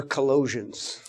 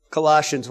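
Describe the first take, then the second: First: "Colossians" with a long O, kuh-LOH-zhunz; alternative pronunciation. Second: Said in the usual way. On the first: Shown as a demonstration. Preacher offering another way to say it, "Colossians" as kuh-LOH-zhunz. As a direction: say "Colossians" softly, second syllable like "low". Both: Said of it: "However you like to say it".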